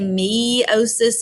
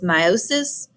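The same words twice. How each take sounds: First: The E sound at the start is emphasized. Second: The start is said without an emphasized E. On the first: "I always say meiosis in class and emphasize the E" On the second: "The correct pronunciation is meiosis"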